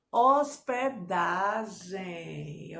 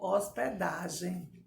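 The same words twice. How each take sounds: First: Very slow "Hospedagem", each syllable stretched; syllable-by-syllable dictation. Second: Said in the usual way. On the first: Shown as a demonstration. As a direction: draw out "Hospedagem" in separate syllables. Teacher divides word into syllables.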